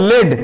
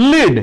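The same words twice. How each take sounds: First: "লেড" pronounced like the metal, with an eh vowel; short-e pronunciation. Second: "লিড" pronounced like the verb, rhyming with need; ee-vowel pronunciation. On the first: Teacher showing students the metal's name, "লেড" with short e. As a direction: say "লেড" with a short e, rhyming with red. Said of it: "উচ্চারণ হবে লেড". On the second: Teacher showing students the word meaning to guide, "লিড" with ee. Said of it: "কিন্তু উচ্চারণ আলাদা". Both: Shown as a demonstration.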